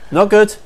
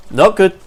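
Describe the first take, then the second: No difference in how they are said.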